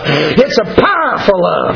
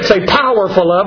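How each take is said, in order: First: The phrase is said forcefully, with strong emphasis. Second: The phrase is said mildly, without much force. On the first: The speaker calls it right. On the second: The speaker calls it wrong.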